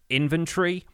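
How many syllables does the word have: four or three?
three. The word is said with three syllables. "British English pronounces it with three syllables"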